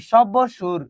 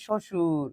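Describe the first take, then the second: First: Slow shob-bo-shur for "সব বসুর"; "সব বসুর" drawn out with an audible b; b wrongly sounded. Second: Shoshur, with no b sound in "শ্বশুর"; "শ্বশুর" pronounced shoshur, the b dropped; silent b. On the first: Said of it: "এখানে কি আমরা বলতেছি". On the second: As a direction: say "শ্বশুর" as sho-shur, b silent. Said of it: "এখানে কি আমরা বলতেছি সব বসুর? না". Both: Shown as a demonstration.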